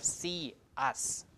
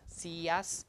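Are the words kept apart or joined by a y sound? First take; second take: apart; joined. First: No y glide links the two words. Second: A y glide links the two words. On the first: "instead of" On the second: "So we put in a Y sound"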